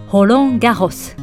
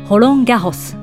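First: The name is said with French sounds. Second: The same.

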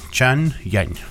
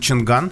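First: The second syllable starts with a soft y sound. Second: The second syllable starts with a hard g sound. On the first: This is how the makers say the name should sound. "китайцы настаивают, что произносится это Чаньянь" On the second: This is the usual local way of saying the name. "то, что мы называем Чанган"

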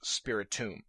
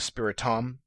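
First: The ending sounds like the word tomb. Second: The ending sounds like the word tom. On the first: The speaker calls it right. "It's the word spirit and tomb put together" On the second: The speaker calls it wrong. "I've heard people saying Spiritom"

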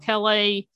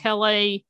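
First: It is pronounced the French way. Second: The same.

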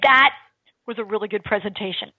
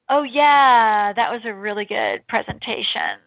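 First: It sounds sincere and convincing. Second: It sounds insincere and unconvincing.

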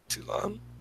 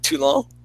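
First: The name is said with a plain English accent. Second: The name is said with a French-sounding accent. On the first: "that sounded normal" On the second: "did you just pronounce it all Frenchy?"

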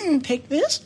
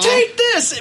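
First: It is said hesitantly, rising like a question. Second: It is said confidently, falling at the end.

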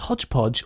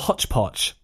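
First: Each syllable ends with a voiced j sound. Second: Each syllable ends with a voiceless ch sound. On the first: This is the Americanized form of the phrase. "you and I have been subtly Americanized into saying it's hodgepodge" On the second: This is the traditional British form of the phrase. "that is the traditional British variant of the phrase"

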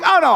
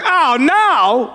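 First: It is said calmly and casually. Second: It is said with serious alarm.

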